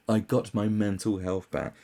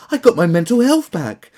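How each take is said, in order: First: Said in the usual way. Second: High, loud gloating parody; mocking gush. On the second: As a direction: sing it out like a bragging celebrity. Parody versus his own plain read.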